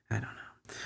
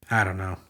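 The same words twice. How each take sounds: First: Much softer, barely voiced; near-silent murmur. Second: Said in the usual way. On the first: Real, not acted. Giving up on the lesson, a near-silent resigned murmur. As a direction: let it fade away to nothing.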